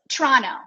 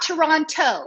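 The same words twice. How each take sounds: First: The second T is dropped. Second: The second T is clearly pronounced. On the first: The speaker calls it right. "No T" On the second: The speaker calls it wrong. "It's not Toronto"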